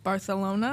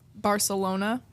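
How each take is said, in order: First: The 'c' is pronounced as a 'th' sound. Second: The 'c' is pronounced as an 's' sound. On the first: The speaker calls it right. "T H" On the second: The speaker calls it wrong. "Laya would yell at me when I would say Barcelona"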